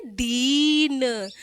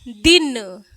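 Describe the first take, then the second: First: दीन with a long drawn ई, very slow. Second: दिन said short and loud; a short crisp दिन. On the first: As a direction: stretch the vowel of दीन. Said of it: "इसमें बड़ी ई लगी है". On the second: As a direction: clip दिन quickly. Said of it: "इसको हम धीरे से उच्चारित कर रहे हैं". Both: Shown as a demonstration.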